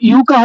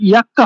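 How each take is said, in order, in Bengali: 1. শব্দটি 'yu' ধ্বনি দিয়ে শুরু হয়। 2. শব্দটি 'ya' ধ্বনি দিয়ে শুরু হয়। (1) "এখন ইউকা হবে না" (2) "আট তারিখটাকে তাহলে ইয়াক্কা হবে"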